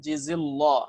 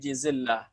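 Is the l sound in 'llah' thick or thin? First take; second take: thick; thin. First: The l sound is thick and heavy. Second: The l sound is thin and light. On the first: The speaker calls it wrong. "Bukan jizillah ya" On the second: The speaker calls it right. "dibaca tarkik. Ya, jangan ditebalkan"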